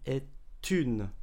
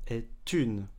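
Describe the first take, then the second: Both takes have the same delivery.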